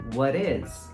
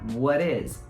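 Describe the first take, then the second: No difference in how they are said.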